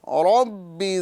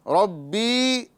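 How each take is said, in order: First: The final vowel is kept short. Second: The final vowel is drawn out long. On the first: The speaker calls it right. "बल्कि करना है रब्बि ज़िदनी इल्मा" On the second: The speaker calls it wrong. "अब ये रब्बी यहाँ पर नहीं खींचना है"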